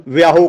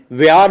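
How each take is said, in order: First: ਵਿਆਹੋ said "vi-aa-ho", final "o" sounded; kirtan singers' mispronunciation. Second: ਵਿਆਹ said "vi-aa", no "ho"; correct silent ending. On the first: Retold or imitated. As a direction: tack a voiced "ho" onto ਵਿਆਹੋ. (ਵਿਆਹੋ, ਅੰਤ ਵਿੱਚ "ਹੋ" ਬੋਲ ਕੇ) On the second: Shown as a demonstration. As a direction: end ਵਿਆਹ on open "aa". (ਵਿਆਹ ਨੂੰ "ਵਿਆ" ਵਾਂਗ ਬੋਲਿਆ) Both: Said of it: "ਇਹਦਾ ਉਚਾਰਨ ਨਹੀਂ ਹੁੰਦਾ ਇਸ ਤਰ੍ਹਾਂ".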